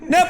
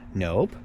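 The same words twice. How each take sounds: First: The word is said short and sharp. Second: The word is said softly and without force. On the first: The speaker calls it right. "like boom, sharp" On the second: The speaker calls it wrong. "not like if you go"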